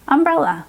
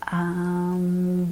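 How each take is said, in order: First: Said in the usual way. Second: "Umbrella" stretched out sound by sound; really slow. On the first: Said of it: "So they would say". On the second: Shown as a demonstration. Coach repeats the word for the listening child, really slow. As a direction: draw out each part of "Umbrella", low and even. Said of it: "read it really slowly".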